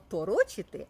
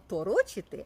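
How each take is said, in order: First: The stress falls on a syllable with o. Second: The stress falls on a syllable with o.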